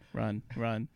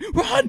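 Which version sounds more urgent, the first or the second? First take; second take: first; second. First: It is said calmly with little urgency. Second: It is said loudly with strong urgency. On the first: The crow is near the entrance. "The person was like" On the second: The crow is deep inside. "Then all the way in"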